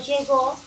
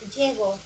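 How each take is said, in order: First: The stress is on the last syllable. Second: The stress is on the first syllable. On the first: "Acá es aguda" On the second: "ser grave"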